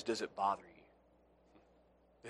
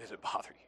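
First: Drawn out very slowly, much softer; soft searching question. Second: Breathy whisper, almost silent; whispered question. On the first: Preacher probing the congregation's conscience, slow and soft. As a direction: lean in and ask it gently and slowly. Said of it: "repeated softly as a probe". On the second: Preacher pressing the question home in a whisper. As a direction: whisper it as if into one ear. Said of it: "whispered repeat of the question". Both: Shown as a demonstration.

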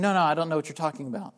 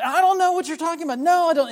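First: Quick, low, offhand mock denial; imitating a momentary, dismissive denial; casual brush-off. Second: High, loud, rapid-fire mock denial; acted-out insistent outburst of denial; going off. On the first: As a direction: toss off a passing denial in a hurry. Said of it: "was not just saying". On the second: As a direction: protest over and over, voice raised. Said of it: "he's going off".

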